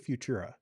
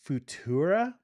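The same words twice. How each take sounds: First: It begins like the word future. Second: It does not begin like the word future. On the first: The speaker says it this way. "like future" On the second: Other people say it this way. "I've heard people say it that way"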